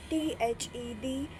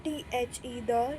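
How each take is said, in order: First: डी said as "thee" after the spelling; डी rhyming with "see"; long-ee pronunciation. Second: "the" said as "thuh" after the spelling; "the" with a neutral 'uh' sound; schwa pronunciation. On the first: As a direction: spell it out, then give डी a long 'ee'. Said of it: "कुछ लोग दी बोलते हैं". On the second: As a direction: spell it out, then give "the" a short 'uh'. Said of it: "कुछ लोग द बोलते हैं". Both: Shown as a demonstration.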